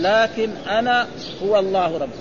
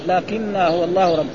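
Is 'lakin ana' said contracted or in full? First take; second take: full; contracted. First: The two words are said separately in full. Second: The two words merge into one contracted form. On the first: "أي لكن أنا هو الله ربي" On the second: "ثم حذفت الهمزة وأدغمت النون في النون"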